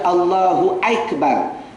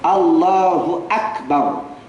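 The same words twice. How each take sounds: First: Akbar begins with a gliding 'aik' sound. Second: Akbar begins with a plain, pure 'a' vowel. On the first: The speaker calls it wrong. "Jangan baca" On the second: The speaker calls it right. "bacaan yang betul"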